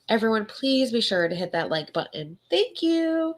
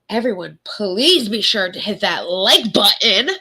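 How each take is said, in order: First: It is said in a sweet tone. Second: It is said in a rude tone.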